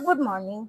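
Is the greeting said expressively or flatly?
flatly. The greeting is said flatly, without expression. The speaker calls it wrong. "তুমি এমনি বলতেছো"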